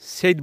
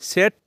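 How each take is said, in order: First: The vowel is a long 'ay' sound. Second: The vowel is a short 'eh' sound. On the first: The speaker calls it wrong. "সেইট বলবো না" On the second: The speaker calls it right.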